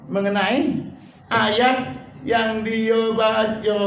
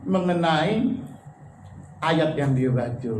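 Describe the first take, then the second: First: "ayat" lifted, "yang dia baca" very slow; emphatic repeat. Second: Said in the usual way. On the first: Shown as a demonstration.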